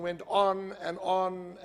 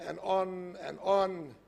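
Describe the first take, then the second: First: Said in the usual way. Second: Slowed right down, dragging each on; a mock-weary endless drag; drawn out. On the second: Shown as a demonstration. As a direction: stretch it out like it never ends. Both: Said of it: "It just didn't stop".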